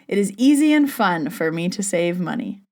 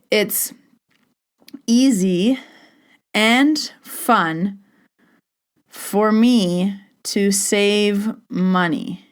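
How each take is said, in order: First: It is said smoothly, without a struggle. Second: It is said haltingly, with a struggle.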